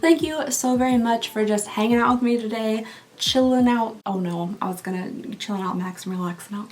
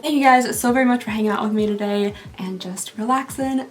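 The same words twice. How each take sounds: First: Tongue-tied sign-off; stumbling over the words; flubbed line. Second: Said in the usual way. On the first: Real, not acted. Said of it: "No, no, redo".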